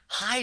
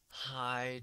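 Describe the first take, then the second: First: The greeting sounds neutral, not gloomy. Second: The greeting sounds low and depressed. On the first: The speaker calls it wrong. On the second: The speaker calls it right.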